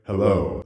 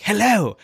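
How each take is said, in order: First: Low, slow dragon hello. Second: Higher, louder game greeting; a bright NPC hello up close; cheery NPC hello. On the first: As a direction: greet like an ancient dragon. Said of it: "The dragon's voice". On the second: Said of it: "they're like". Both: Retold or imitated.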